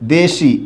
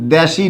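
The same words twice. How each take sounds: First: The first vowel is a closed e sound. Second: The first vowel is an open e sound. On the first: The speaker calls it right. "এখানে দের উচ্চারণ একারই থাকবে" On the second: The speaker calls it wrong. "দেশি না"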